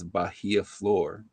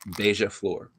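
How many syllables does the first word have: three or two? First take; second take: three; two. First: The first word is said with three syllables. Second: The first word is said with two syllables. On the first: The speaker calls it wrong. "that's not how you pronounce that" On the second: The speaker calls it right. "it's pronounced Beja"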